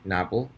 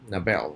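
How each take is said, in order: First: The stress is on the first syllable. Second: The stress is on the second syllable.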